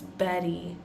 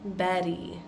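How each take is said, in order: No difference in how they are said.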